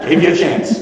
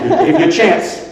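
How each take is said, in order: First: Said in the usual way. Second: High mocking take. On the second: Shown as a demonstration. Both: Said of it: "repeated punchline".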